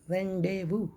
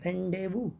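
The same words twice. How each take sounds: First: The z and final s sounds are silent. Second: The same.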